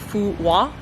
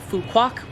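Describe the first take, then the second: First: The name is said with a Vietnamese-style pronunciation. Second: The name is said with an English-style pronunciation. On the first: This is how locals say it. The speaker calls it right. "the correct pronunciation is something along the lines of Phu Hoa" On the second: This is how English speakers read the spelling. The speaker calls it wrong. "a lot of English speakers pronounce the island Phu Quoc"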